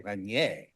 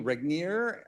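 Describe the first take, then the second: First: The name is said with a French pronunciation. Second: The name is said with an English pronunciation. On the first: "if I were French, I would say" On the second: "I'm going to assume it's pronounced that way"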